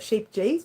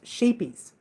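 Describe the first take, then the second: First: The middle consonant is a hard 'j' sound. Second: The middle consonant is a soft 'y' sound. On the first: The speaker calls it wrong. "A lot of people call it sheep G's because it's got a J in there" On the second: The speaker calls it right. "but it's pronounced sheepies"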